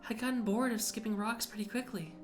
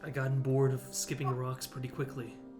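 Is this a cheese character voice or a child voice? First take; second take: child voice; cheese voice. First: It is said in a put-on childlike voice. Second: It is said in a put-on cheese character voice. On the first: The speaker calls it right. "I can do my child voice" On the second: The speaker calls it wrong. "I don't have to do my cheese voice"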